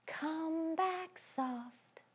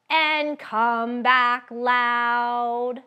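First: Slow whispered; hushed slow sung whisper; soft. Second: Slow and louder; slow loud sung line. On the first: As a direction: whisper it softly. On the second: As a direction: belt it out. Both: Shown as a demonstration.

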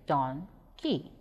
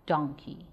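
First: "donkey" slowly split in two, pause between; syllable by syllable. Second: Said in the usual way. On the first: Shown as a demonstration. Teacher showing pupils the syllables of "donkey", slow and separated. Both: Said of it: "If we break donkey into syllables".

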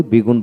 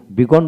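First: বিগুণ with "oo", "bi-goon"; less common pronunciation. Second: বিগণ with an open "o", "bi-gawn"; preferred pronunciation. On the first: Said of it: "বিগুণ বলি কম". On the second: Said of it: "বিগণ বলি". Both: Shown as a demonstration.

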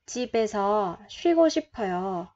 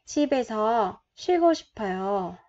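No difference in how they are said.

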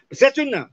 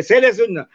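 First: SECHUNA with ch in the middle; fused che sound. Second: SELE SUNNA as two words with plain s; parts kept separate. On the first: Teacher showing how che comes out, fused "sechuna" with ch. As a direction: run it together as sechuna, with a ch. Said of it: "y sale el sonido che". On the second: Teacher showing the parts before joining, separated "sele sunna". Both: Shown as a demonstration.

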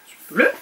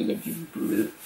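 First: Said in the usual way. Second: A breathy French whisper, much softer; whispered aside. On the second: Real, not acted. Pointing out the blue cover to viewers, whispered. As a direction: let it drop into a soft whisper.

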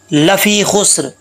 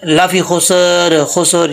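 First: "लफ़ी खुस्र" with स and र joined, no vowel between; correct recitation. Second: "खुस्र" wrongly said "khu-sor", with a vowel before र; mistaken pronunciation. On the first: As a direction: recite "लफ़ी खुस्र" slowly, closing straight from s into r. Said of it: "इसको ऐसे नहीं पढ़ना". ("लफ़ी खुस्र" में सीन साकिन, बिना ज़बर के पढ़ें) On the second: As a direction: slip an extra vowel into "खुस्र", as "khosor". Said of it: "ये मिस्टेक है". ("खुस्र" को ग़लती से "ख़ुसर" पढ़ें) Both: Shown as a demonstration.

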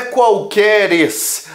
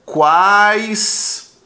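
First: Qualqueres with an added -es, drawn out; wrong plural. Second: Quaisquer split in two, QUAIS held long; correct plural. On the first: Teacher rejecting a wrong plural, qualqueres slow with stretched -es. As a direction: stretch the false ending of qualqueres. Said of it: "Não é qualqueres". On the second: Teacher revealing the right form, quaisquer slowly split. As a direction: stretch QUAIS, then quer, in quaisquer. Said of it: "A forma correta desse plural". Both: Shown as a demonstration.

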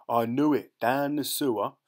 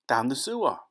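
First: Loud, gloating Cockney rat man; triumphant. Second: Higher, impatient retort; irritated answer. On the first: A narrator's reading. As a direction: crow over being proved right. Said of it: "the rat man cried triumphant". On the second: Acted. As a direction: state the obvious impatiently. Claude's irritated answer, echoed in triumph.

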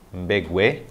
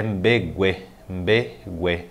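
First: Said in the usual way. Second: "mbegue" slowly, split into two beats; broken into syllables. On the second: Shown as a demonstration. Teacher introducing a Guarani word, syllable by syllable. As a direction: say "mbe... gue" with a gap between syllables.

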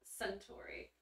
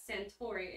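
First: Hushed whispered Suntory. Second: Said in the usual way. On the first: Real, not acted. Repeats the whiskey brand name.

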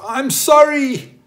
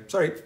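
First: Big, high, loud SORRY, drawn out slowly; emphatic apology. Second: Quick, short "Sorry" tossed off in passing; curt apology. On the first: Backed into someone's car, hopping out, emphatic apology. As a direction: cry out "SORRY" long and loud, with full emphasis. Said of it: "say with emphasis". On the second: Bumping into somebody on the subway, curt apology. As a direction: toss out a brisk, curt sorry. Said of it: "giving them a curt nod and saying". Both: Shown as a demonstration.

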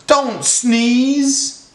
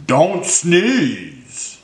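First: High-pitched plea, drawn out; high, anxious fish begging; pleading fish. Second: Slow hippo plea, less high; lightly voiced hippo begging; drawn-out plea with a falling end; pleading hippo. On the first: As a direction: beg in a high little fish voice. Fish begs elephant not to sneeze. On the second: Hippo begs elephant not to sneeze. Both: A narrator's reading.

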